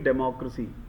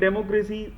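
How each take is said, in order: First: The ending 'cracy' is soft with a reduced vowel. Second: The ending 'cracy' has a full, highlighted vowel. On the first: The speaker calls it right. "It should be डेमोक्रेसी" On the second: The speaker calls it wrong. "That will not be as per the standard"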